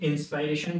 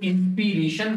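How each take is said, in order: First: The second syllable has a long 'eye' vowel. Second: The second syllable has a short 'i' vowel. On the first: The speaker calls it right. "इंस्पायरेशन ही exactly बोला जाना चाहिए" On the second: The speaker calls it wrong. "इंस्पिरेशन तो बोला वो मेरी इंस्पिरेशन है"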